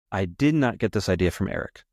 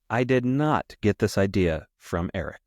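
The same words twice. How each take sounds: First: "did" lifted, rest of the line even, at normal pace; stress on did. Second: I did not, slow, with not hit hard and falling; slow down and lean on "not" to insist; emphatic stress on not. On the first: Repeating the denial to listeners, stress on did. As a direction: give "did" a firm push, no slowing. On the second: Insisting to listeners the idea wasn't Eric's, stressing not. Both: Real, not acted.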